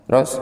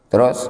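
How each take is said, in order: No difference in how they are said.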